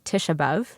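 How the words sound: The vowels are flattened, in an American way. "I grew up saying Tisha B'Av, um, so sort of flattening all of the, the vowels"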